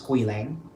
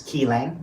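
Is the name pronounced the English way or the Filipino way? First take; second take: English; Filipino. First: The name is pronounced the English way. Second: The name is pronounced the Filipino way. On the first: "like in English they pro- they pronounce it as Quilang" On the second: "some people pronounce it as Kilang, like in Filipino"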